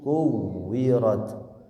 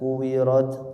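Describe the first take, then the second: First: The w sound is pressed and held doubled. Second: The w sound is short and single. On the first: The speaker calls it right. "Ditekan dulu kuwirat. Tidak dibaca kuwirat tapi kuwirat" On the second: The speaker calls it wrong. "Tidak dibaca kuwirat"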